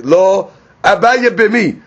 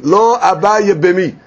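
First: There is a pause after the first word. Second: The words run together with no pause. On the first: No; he does want to perform the levirate marriage. The speaker calls it wrong. "If you put a comma, like, or you pause" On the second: He does not want to perform the levirate marriage. The speaker calls it right. "they have to read it together"

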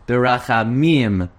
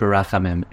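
First: The stress falls on the last syllable. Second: The stress falls before the last syllable. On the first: The speaker calls it right. "It's a milra" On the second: The speaker calls it wrong. "there's no word b'rachamim"

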